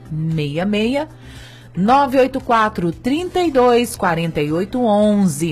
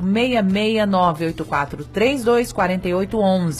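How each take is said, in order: First: The number is said more slowly. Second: The number is said at a normal pace.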